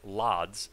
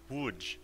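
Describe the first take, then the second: First: The name is said with an anglicized pronunciation. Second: The name is said with a native Polish pronunciation. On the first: The speaker calls it wrong. "pronounced nothing like Lodz" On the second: The speaker calls it right. "it's more like Łódź"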